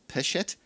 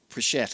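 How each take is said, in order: First: The name has no r after the first sound. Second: The name has an r after the first sound.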